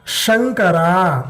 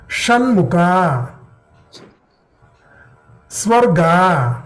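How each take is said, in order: First: Shankara drawn out slowly, palatal sha; teacher modelling Shankara slowly; slow demo. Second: Shanmukha drawn out slowly, retroflex sha; teacher modelling Shanmukha slowly; slow demo. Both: Shown as a demonstration.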